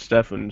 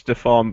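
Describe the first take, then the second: First: The name is said with an English pronunciation. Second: The name is said with a Swedish pronunciation. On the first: This is how people around him usually say it. "everyone calls him Stefan" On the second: This is how it is said in the name's home country. "I'm sure they say it's Stefan"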